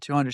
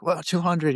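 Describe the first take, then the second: First: Said in the usual way. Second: A touch of amazed disbelief on whoa; imitating a hint of wonder; mild surprise. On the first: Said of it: "I said". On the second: Client hearing she lifted two hundred, mildly amazed. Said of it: "she's like".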